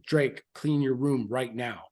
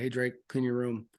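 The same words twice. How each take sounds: First: Impatient order. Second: Said in the usual way. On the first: Retold or imitated. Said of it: "I start getting very impatient".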